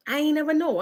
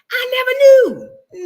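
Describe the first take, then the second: First: Said in the usual way. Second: "never" drawn out high and loud, slow; correcting to proper English, NEVER stressed. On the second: Shown as a demonstration. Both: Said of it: "I'm sorry".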